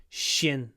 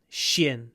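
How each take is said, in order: No difference in how they are said.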